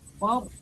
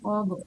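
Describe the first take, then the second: First: The final consonant is held without any release. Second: The final consonant bounces with an audible release. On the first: The speaker calls it right. "tebal tapi tidak boleh mantul" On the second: The speaker calls it wrong. "nggak boleh fad"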